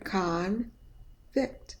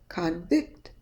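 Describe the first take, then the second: First: The first syllable is full and clear. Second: The first syllable is mumbled with a schwa. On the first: It names a person found guilty. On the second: It means to find someone guilty.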